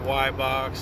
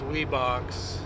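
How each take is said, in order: First: The name starts with 'why' and ends with 'box'. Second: The name is said ending with an x sound. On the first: "or Y-Box" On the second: "a lot of people think that's Weebox"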